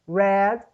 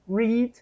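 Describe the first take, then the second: First: The vowel is a short eh sound. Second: The vowel is a long ee sound. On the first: It is the past form of the verb. "nos outros tempos ele tem o som de e" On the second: It is the base form of the verb. "ele tem o som de i"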